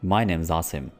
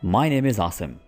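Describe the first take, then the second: First: 'Is' is shortened and joined onto 'name'. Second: 'Is' is said as a separate full word.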